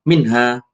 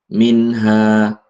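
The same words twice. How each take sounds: First: The word is said hurriedly and overdone. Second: The word is said calmly, without exaggeration. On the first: The speaker calls it wrong. "Jangan terlalu lebay sehingga kayak kayak tergesa-gesa" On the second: The speaker calls it right. "Jadi seperti itu"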